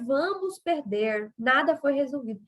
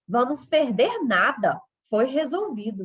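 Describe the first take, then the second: First: There is a pause after 'perder'. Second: There is a pause after 'nada'. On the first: We will lose; nothing was resolved. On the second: We will lose nothing; it was resolved.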